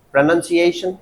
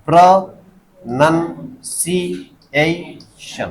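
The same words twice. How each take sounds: First: Said in the usual way. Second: pronunciation in five slow, separate beats; syllable by syllable. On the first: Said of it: "पांच हो गए।". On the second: Shown as a demonstration. Teacher asking students to count syllables, slow and segmented. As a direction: count out pronunciation as pra, nan, si, ei, shan. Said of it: "कितने हो गए?".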